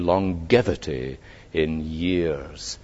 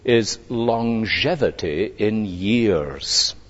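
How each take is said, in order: First: It is said in an American accent. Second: It is said in a British accent.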